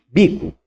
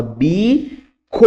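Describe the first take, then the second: First: Said in the usual way. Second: BICO split into a long BI, then a long CO; drawn-out BICO for a learner; syllable-by-syllable prompt. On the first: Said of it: "O que que tá escrito aqui?". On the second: Shown as a demonstration. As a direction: stretch each syllable of BICO separately. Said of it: "você fala, bico".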